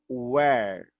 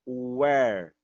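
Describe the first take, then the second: The two takes are said the same way.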